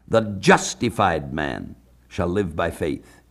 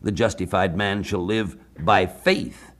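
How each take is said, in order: First: The stress is on the word man. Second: The stress is on the word faith.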